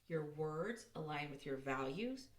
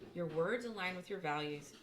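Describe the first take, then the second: First: It is said a little more slowly. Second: It is said at a normal pace.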